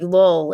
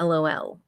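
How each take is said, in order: First: The letters are read together as one word. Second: The letters are spelled out one by one. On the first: "we're just reading the acronyms now" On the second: "instead of"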